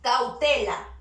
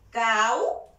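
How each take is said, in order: First: Said in the usual way. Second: "Cau-te-la" with long pauses between syllables. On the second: Shown as a demonstration. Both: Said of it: "Primero una vocal abierta, seguida".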